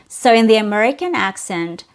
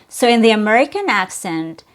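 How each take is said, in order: No difference in how they are said.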